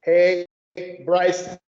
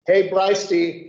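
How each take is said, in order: First: Hebraisti drawn out slowly, each syllable clear. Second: Hebraisti with a clear H at the start, hey-brai-sti. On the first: Teacher slowly sounding Hebraisti for the class. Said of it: "you read it, he". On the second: Teacher showing the H sound in Hebraisti. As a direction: open Hebraisti with a breathy H. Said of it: "the apostrophe E". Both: Shown as a demonstration.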